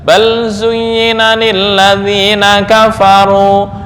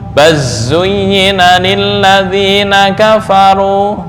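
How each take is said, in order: First: The l sound is pronounced clearly before z. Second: The l sound merges into a doubled z.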